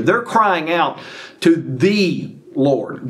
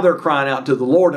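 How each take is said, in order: First: Slow, weighty stress on "the" before Lord. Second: Said in the usual way. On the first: Shown as a demonstration. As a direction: draw out "to the" and set "Lord" apart. Retake stressing which Lord they call.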